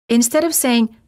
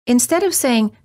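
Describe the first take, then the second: No difference in how they are said.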